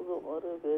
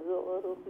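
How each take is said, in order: Both takes have the same delivery.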